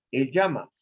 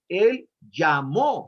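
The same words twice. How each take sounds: First: Said in the usual way. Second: Llamó drawn out slowly, weight on the final O; Él llamó, slow and deliberate, leaning on -mó; stress on the O of llamó. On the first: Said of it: "El verbo llamar en presente es ¿cuál?". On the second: Shown as a demonstration. Teacher to Bible study group, slow stressed past tense. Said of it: "con tilde en la O".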